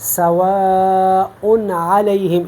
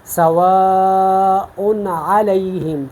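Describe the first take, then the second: First: The n sound is pronounced clearly and distinctly. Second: The n sound is pronounced clearly and distinctly.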